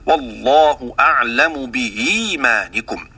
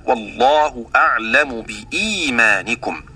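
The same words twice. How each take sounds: First: Slow reading of بإيمانكم with the hamza blurred between hamza and ya; Hamza's tashil bayna bayn; softened hamza. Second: Slow reading of بإيمانكم with a clear glottal stop on the hamza; Hamza's tahqiq at a pause; full hamza. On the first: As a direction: recite بإيمانكم slowly with the hamza eased halfway toward a ي glide. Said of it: "هكذا". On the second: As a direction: recite بإيمانكم slowly with the hamza pronounced crisp and full. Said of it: "ولحمزة وقفا هنا التحقيق هكذا". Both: Shown as a demonstration.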